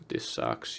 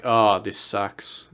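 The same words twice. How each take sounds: First: Breathless whisper. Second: Slow, low and softer, dragging the oh; mopey groan. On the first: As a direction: let it die into a whisper. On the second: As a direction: sigh it out like life is pointless. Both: Retold or imitated. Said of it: "You're just like".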